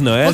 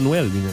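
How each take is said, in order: First: The o and ë are said as separate syllables. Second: The o glides into the ë with a w sound. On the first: "tu prononces vraiment les deux lettres comme presque séparément" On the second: "faut que t'ajoutes un W"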